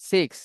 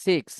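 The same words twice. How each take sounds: The two takes are said the same way.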